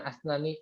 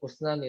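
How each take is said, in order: First: The word begins with the vowel a. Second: The word begins with the vowel u. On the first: "bukan asnani" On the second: "usnani tapi isnani"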